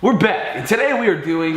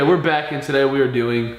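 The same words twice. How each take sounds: First: It is said with lively enthusiasm. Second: It is said flatly, without enthusiasm.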